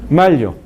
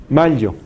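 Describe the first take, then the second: No difference in how they are said.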